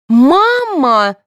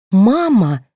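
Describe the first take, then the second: First: High, loud, long-drawn cry; shouting. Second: Drawn, moaned cry, less high-pitched; groaning.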